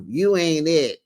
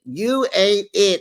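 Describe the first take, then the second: First: Said in the usual way. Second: Higher and slower, leaning on "You"; emphatic mock dismissal. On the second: Repeating Toya brushing off Heavenly, slow and emphatic. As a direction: stretch "You ain't it" out, dismissive.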